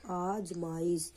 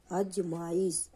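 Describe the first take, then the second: First: आजमाइश said slowly with a long aa at the start; slow right take, आजमाइश with long aa; correct pronunciation. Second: अजमाइश said slowly with a short a at the start; slow wrong take, अजमाइश with short a; wrong pronunciation. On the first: Teacher models the correct form: आजमाइश with long aa. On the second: Teacher shows the wrong form: अजमाइश with short a. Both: Shown as a demonstration. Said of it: "अजमाइश नहीं".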